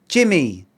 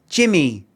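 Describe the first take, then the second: The two takes are said the same way.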